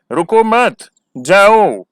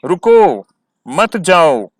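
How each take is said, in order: First: "रुको मत" as one phrase, a pause, then "जाओ" said louder; "रुको मत" joined up, then a break before "जाओ"; pause after मत. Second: "रुको" alone and louder, a pause, then "मत, जाओ"; "रुको" on its own, then a break before "मत, जाओ"; pause after रुको. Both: Shown as a demonstration. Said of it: "तभी समझ में आएगा कि हम कहना क्या चाहते हैं".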